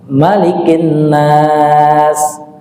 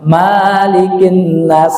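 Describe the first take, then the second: First: The first vowel of Malikin is short. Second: The first vowel of Malikin is long.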